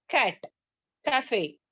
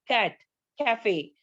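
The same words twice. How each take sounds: The two takes are said the same way.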